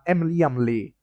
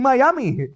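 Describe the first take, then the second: First: The name sounds like Emily Lee. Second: The name sounds like Miami. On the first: The speaker calls it wrong. "I've been pronouncing that wrong" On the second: The speaker calls it right. "It's actually Miami"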